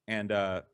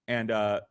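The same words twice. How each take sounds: The two takes are said the same way.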